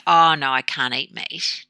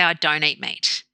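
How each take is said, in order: First: Mildly helpless mock refusal; slight victim. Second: Plain, matter-of-fact statement; empowered refusal. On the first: Vegetarian offered some meat, slight victim refusal. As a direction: decline like a bit of a victim, lightly acted. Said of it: "this kind of slight victim where you can't". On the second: Retold or imitated. Vegetarian declining meat when offered, empowered refusal. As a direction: state it simply, as a settled choice. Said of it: "you are empowered then by saying".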